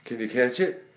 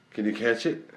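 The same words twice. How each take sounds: The two takes are said the same way.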